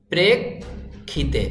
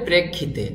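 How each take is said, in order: First: প্রেক্ষিতে very slowly, split "prek... khite"; syllable-by-syllable demo. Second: প্রেক্ষিতে joined up as "prekkhite"; careful unbroken প্রেক্ষিতে; correct pronunciation. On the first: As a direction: pause after the k in প্রেক্ষিতে, then aspirate খিতে. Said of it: "এভাবে করে বানান করতে হবে". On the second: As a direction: say প্রেক্ষিতে whole, with k-kh in the middle. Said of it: "শব্দটির সঠিক উচ্চারণ হবে". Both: Shown as a demonstration.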